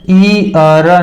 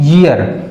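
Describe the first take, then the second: First: The word begins with a plain ee vowel. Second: The word begins with a y sound. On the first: The speaker calls it wrong. "ई अर नहीं है" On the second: The speaker calls it right. "इसका सही उच्चारण यही है"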